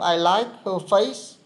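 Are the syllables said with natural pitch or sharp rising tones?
rising tones. Syllables carry sharp, rising Vietnamese-like tones. The speaker calls it wrong. "không I like her face. Không có thế"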